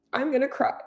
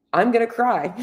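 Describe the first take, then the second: First: Higher, softer, a teary laugh breaking through; laughing through tears. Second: Real welling emotion, voice starting to rise; close to tears. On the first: Coach laughing at herself on camera while tearing up. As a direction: laugh at yourself as the tears come. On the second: Coach admitting to viewers she's about to cry, close to tears. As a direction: warn them the tears are coming. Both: Real, not acted. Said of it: "I'm sorry that I'm emotional".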